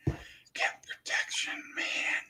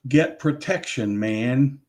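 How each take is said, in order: First: Slow, very soft imitated whisper. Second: Said in the usual way. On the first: Shown as a demonstration. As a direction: whisper it like the man on the recording. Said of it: "but he's whispering it". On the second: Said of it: "some guy whispering the words".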